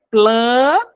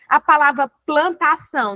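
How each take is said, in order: First: "Plantação" in three loud, separate beats, plan... ta... ção; split into syllables. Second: Said in the usual way. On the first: Shown as a demonstration. Teacher answering how to break words, "Plantação" loudly syllable by syllable. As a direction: break "Plantação" with a long pause after each syllable. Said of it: "tem que quebrar a palavra dentro da sílaba".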